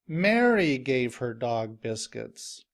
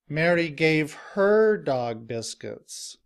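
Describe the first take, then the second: First: The word Mary is louder, longer and higher. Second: The word her is louder, longer and higher. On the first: It stresses who is giving the dog biscuits. "the stress is on Mary" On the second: It stresses who is receiving the dog biscuits. "the stress is now on the word her"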